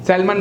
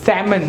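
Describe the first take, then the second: First: The L sound is pronounced in the word. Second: The L sound is silent in the word. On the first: The speaker calls it wrong. "नॉट सैल्मन" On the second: The speaker calls it right. "सैमन not सैल्मन"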